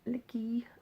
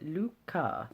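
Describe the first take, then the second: First: It sounds like 'licky', with an ee ending. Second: It sounds like 'Luca', with an ah ending. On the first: The speaker calls it wrong. "so not licky at all" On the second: The speaker calls it right. "as it's pronounced on the back"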